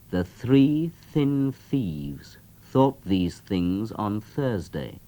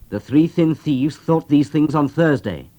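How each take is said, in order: First: It is said at a normal, steady speed. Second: It is said noticeably faster than before.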